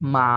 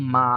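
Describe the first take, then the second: First: It is said with the third tone. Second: It is said with the third tone.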